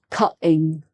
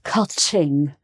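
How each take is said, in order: First: The t is dropped. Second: The t is clearly pronounced. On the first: The speaker calls it wrong. "not cutting" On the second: The speaker calls it right. "you can hear the T"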